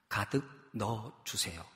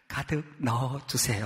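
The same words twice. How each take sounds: First: It is said in a plain, casual voice. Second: It is said in a more polite, deferential voice.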